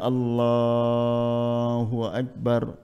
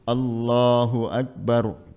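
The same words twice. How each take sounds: First: The phrase is stretched out over a long time. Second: The phrase is said briefly without stretching. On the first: It accompanies a movement from prostration to standing. "takbiratul intiqal boleh dipanjangkan" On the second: It opens the prayer. "takbiratul ihram cukup Allahu Akbar, nggak usah panjang-panjang"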